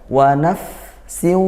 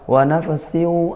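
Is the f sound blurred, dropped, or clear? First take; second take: clear; blurred. First: The f sound is pronounced clearly before s. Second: The f sound is blurred and indistinct. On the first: The speaker calls it right. "jelaskan dulu fa-nya" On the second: The speaker calls it wrong. "Ikhfa seperti apa samar?"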